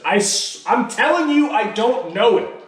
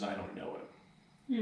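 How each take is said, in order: First: High, loud insistent protest; cornered Peter denying much higher and louder; desperate denial. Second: Much softer, hushed denial; quiet, heavy echo of the denial; hushed, grave recall. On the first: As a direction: swear you don't know him, rising in panic. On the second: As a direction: let the shameful words fall quietly. Peter's last words about Jesus, recalled. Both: Retold or imitated.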